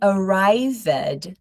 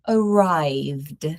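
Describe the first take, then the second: First: The ending is said as an extra syllable. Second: The ending adds no extra syllable. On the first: The speaker calls it wrong. "we don't say arrived" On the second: The speaker calls it right. "We're going to say arrived. ... No extra syllable"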